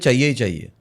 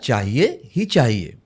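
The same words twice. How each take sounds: First: The phrase is run together and slurred. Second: Each syllable of the phrase is said clearly. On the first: The speaker calls it wrong. "हम लोग क्या बोलते हैं" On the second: The speaker calls it right. "होता है"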